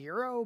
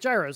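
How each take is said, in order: First: It does not start like gyroscope. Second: It starts like gyroscope. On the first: "I think the correct pronunciation is gyro" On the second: "it's like gyros, like the thing inside the airplanes"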